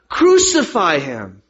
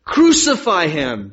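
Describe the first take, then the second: First: Slow, forceful mob cry; loud, insistent demand from the crowd; louder crowd shout. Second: Slow, loud cry of a crowd; drawn-out, projected demand; crowd's shout. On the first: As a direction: shout it all the louder, drawn out. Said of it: "they shouted all the louder". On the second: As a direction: shout it out slowly as the mob. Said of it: "they shouted". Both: A narrator's reading.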